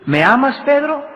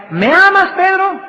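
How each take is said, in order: First: Said in the usual way. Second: Much higher, pressing question on Pedro; insistent third asking. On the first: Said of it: "y le dice Jesús". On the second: Retold or imitated. Jesus asks Peter a third time, much higher and pressing. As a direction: push the third asking up high. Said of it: "le vuelve a decir por tercera vez".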